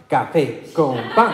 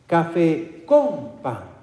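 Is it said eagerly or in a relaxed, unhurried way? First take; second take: eagerly; relaxed. First: It is said eagerly, as if craving coffee. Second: It is said slowly, taking its time.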